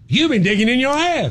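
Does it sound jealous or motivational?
motivational. It sounds motivational and encouraging.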